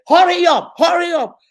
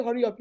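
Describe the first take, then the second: First: Loud, high, impatient "hurry up" shouted twice; impatient mom shout. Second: Said in the usual way. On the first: Retold or imitated. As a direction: bark it like a rushed mother. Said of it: "you will say". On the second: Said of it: "now you don't say".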